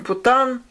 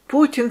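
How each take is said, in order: First: The name is said with a French-sounding ending. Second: The name is said the usual Russian way.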